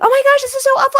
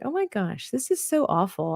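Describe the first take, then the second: First: It is said in a shrill voice. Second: It is said in a normal voice.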